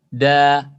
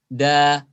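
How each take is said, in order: Both takes have the same delivery.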